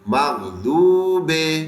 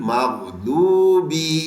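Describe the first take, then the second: First: The word ends with a 'be' sound. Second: The word ends with a 'bi' sound. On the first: The speaker calls it wrong. "बे नहीं है" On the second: The speaker calls it right. "बी"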